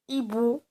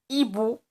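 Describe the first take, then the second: Both takes have the same delivery.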